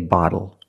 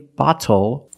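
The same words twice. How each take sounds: First: The middle consonant is a quick D. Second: The middle consonant is a clear T. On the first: The speaker calls it right. "the T changes to a fast D" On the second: The speaker calls it wrong. "we do not say bottle"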